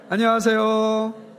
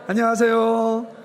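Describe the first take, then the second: Both takes have the same delivery.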